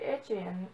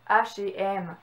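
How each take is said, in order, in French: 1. Le nom est prononcé à l'anglaise. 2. Le nom est prononcé à la française. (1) "comme en anglais, version anglophone" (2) "puis version francophone"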